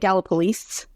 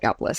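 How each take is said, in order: First: The ending carries an extra bouncy drawn-out sound. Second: The ending is plain without any extra sound. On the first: This is how a local says it. "If I was a native, I would call it Gallipolis and uh, get that extra little bouginess on the end" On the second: This marks the speaker as an outsider. "I call it Gallipolis. So they know I'm an import immediately"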